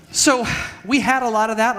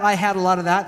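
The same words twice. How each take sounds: First: "we" lifted and stressed, higher. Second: "I" stressed as a correction of "we". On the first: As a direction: lean on "we", then correct yourself. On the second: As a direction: hit "I" to fix the word. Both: Real, not acted.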